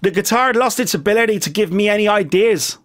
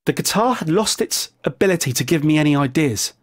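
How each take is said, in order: First: Put-on American accent. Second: Said in the usual way. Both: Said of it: "he would have said it in an American accent".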